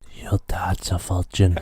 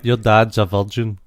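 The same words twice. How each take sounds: First: It is said in an ASMR whisper. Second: It is said in a normal soft voice.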